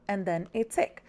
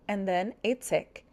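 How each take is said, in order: Both takes have the same delivery.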